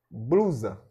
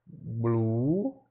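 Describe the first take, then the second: First: Said in the usual way. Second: "blusa" said slowly as blu-sa, syllable by syllable; split into syllables. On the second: Shown as a demonstration. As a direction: break "blusa" into its two syllables for the class. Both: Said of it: "Aí vamos fazer a separação silábica".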